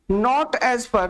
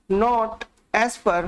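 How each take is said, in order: First: Said in the usual way. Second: Words drawn out very slowly for notes; slow dictation. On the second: Shown as a demonstration. Teacher dictating notes to students, very slow. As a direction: spell it out slowly so students can write. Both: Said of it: "या फिर ऐसे लिखिए".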